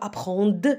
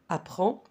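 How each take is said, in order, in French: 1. Le d final se prononce. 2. Le d final ne se prononce pas.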